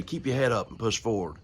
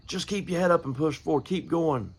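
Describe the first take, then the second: First: Said in the usual way. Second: Pitched way up, urging the crowd on; preaching lift. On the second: Shown as a demonstration. Preacher urging his church to keep going, high ringing call. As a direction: lift the voice high and press them forward. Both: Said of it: "it's easy to say".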